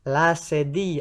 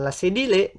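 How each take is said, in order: First: The double L is sounded as a Y. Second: The double L is sounded as an L. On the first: The speaker calls it right. "L dua itu dibaca Y" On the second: The speaker calls it wrong. "bukan la cédille, non, ce n'est pas ça"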